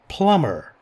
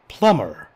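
First: The b sound is silent after the m. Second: The same.

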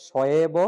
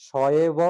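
Both takes have the same delivery.

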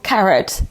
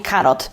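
First: It is pronounced with English sounds. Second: It is pronounced with Polish sounds. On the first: The speaker calls it right. "się mówi po angielsku carrot" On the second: The speaker calls it wrong. "a nie karot"

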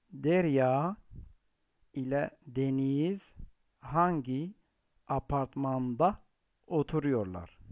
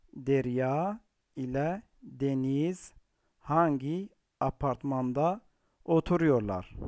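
Both takes have the same delivery.

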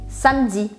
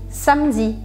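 The two takes are said the same way.

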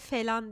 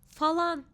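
First: The first vowel sounds like 'e'. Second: The first vowel sounds like 'a'. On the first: The speaker calls it wrong. "felan diyen insanlar" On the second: The speaker calls it right. "Bu kelimenin doğrusu falan"

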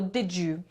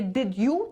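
First: The two words blend into one linked sound. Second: The two words are said separately. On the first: The speaker calls it right. "będziemy to czytać jako tak jakby dr" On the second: The speaker calls it wrong. "Nie did you"

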